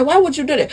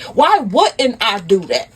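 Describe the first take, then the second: First: Higher-pitched incredulous question; acted indignant disbelief. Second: Slow, pointed comeback; acted indignant retort. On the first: Husband questioning wife's hiring a PI, incredulous. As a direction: ask it quickly, taken aback. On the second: Wife answering her cheating husband, pointedly indignant. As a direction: throw the question back, drawn out. Wife throws the question back.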